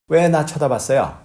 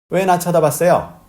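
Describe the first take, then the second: First: The question is asked in a mild, unforceful voice. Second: The question is asked in an angry, offended voice. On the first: The speaker calls it wrong. "목소리가 좀, 좀 그렇죠" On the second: The speaker calls it right. "기분 나쁘게 하면서 막 삿대질하고 난리치는 거죠"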